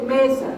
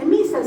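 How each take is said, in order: First: "mesa" with a clear open e; teacher's model "mesa". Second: "misa" with a closed i sound; the child's "misa". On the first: Shown as a demonstration. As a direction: correct the child: "mesa" with an e vowel. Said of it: "se dice mesa". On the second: Retold or imitated. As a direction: say "misa", not "mesa", with an i vowel. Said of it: "eso no se dice misa".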